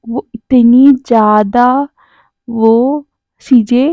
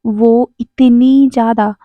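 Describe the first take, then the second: First: Slow, stretched teasing words; lingering mock suspense; drawn-out teasing. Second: Slow, stretched tease; teasing pause before the punchline. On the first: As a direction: drag it out to tease. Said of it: "और कह रहा था". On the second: Acted. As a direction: stretch it out to build suspense. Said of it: "wing कहता है".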